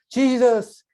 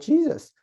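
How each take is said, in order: First: It is said earnestly, as a sincere call. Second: It is blurted out as a startled exclamation. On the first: The speaker is truly calling on the one named. The speaker calls it right. "정말 예수님의 이름을 부를 때" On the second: The name is used only as an expression of surprise. The speaker calls it wrong. "감탄사처럼 어 Jesus, Jesus 뭐 이렇게 하면 안 된다"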